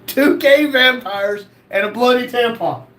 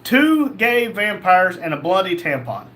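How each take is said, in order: First: Slow, amused disbelief; disbelieving reread. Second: Said in the usual way. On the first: Real, not acted. Host rereads a viewer's wild username, disbelieving. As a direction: read it again like you can't believe it.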